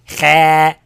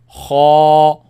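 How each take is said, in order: First: The sound is light, not held in the mouth. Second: The sound is heavy and kept inside the mouth. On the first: The speaker calls it wrong. "I don't say ha" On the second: The speaker calls it right. "I say ha... Heavy sound stay in the mouth"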